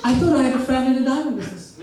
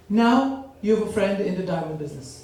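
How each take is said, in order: First: Commercial voice. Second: Calm ad announcer tagline; commercial voice. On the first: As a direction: punch it like a TV jingle line. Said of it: "I tell them what?". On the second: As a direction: say it like a smooth TV ad. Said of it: "This is for you". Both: Retold or imitated.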